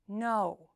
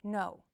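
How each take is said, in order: First: "No" drawn out, pitch falling firmly; drastic falling inflection. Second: "No" with a slight fall in pitch; subtle falling inflection. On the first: Coach showing inflection within a word, drastic fall. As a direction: say "No" emphatically with a bigger downward glide. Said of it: "if it's more drastic". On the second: Coach showing inflection within a word, subtle fall. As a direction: say "No" with only a small downward glide. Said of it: "If the pitch change is subtle". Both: Shown as a demonstration.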